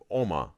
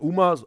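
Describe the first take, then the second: First: The name begins with an 'oh' vowel. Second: The name begins with an 'oo' vowel. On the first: The speaker calls it right. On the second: The speaker calls it wrong. "not Uma"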